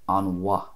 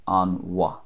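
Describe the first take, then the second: The two takes are said the same way.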